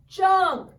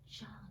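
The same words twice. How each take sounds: First: The word is shouted loudly. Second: The word is whispered softly.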